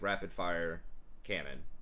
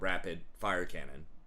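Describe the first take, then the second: First: Rapid fire is grouped, then a break before cannon. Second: A break after rapid, then fire cannon is grouped. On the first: Rapid fire is one compound describing the cannon. The speaker calls it right. "That's how I always pronounce it, like" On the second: Fire cannon is one compound described as rapid. The speaker calls it wrong.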